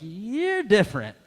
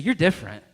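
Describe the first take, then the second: First: It is said sassily, with hesitation. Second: It is said plainly, without attitude.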